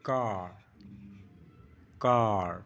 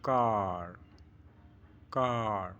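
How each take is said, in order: The two takes are said the same way.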